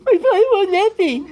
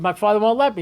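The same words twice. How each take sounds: First: High, loud whining complaint; whiny voice. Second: Said in the usual way. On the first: Retold or imitated. Eliezer whining to the prophet about his father, high and loud. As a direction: whine it like a sulking child, pitched way up. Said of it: "I don't know if Eliyahu Hanavi said it that way". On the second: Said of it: "said it that way".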